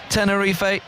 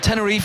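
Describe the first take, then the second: First: The name is said with a Spanish pronunciation. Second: The name is said with an English pronunciation. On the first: This is how Spanish speakers say it. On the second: This is how English speakers say it.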